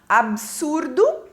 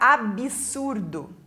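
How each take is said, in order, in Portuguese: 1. Nenhuma vogal é acrescentada depois do b. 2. Uma vogal i é acrescentada depois do b. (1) "aqui está correto" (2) "erradamente pronunciada com um i depois do b"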